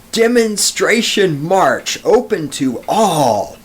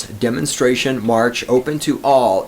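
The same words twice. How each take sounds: First: All caps announcement. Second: Said in the usual way. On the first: Shown as a demonstration. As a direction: read it like it's in all capital letters. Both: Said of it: "is in all capital letters".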